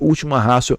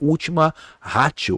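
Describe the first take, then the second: First: Ratio is said without a hard t sound. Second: Ratio is said with a hard t sound. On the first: "pronunciamos última ratio" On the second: "Nós escrevemos última ratio. Ratio com T"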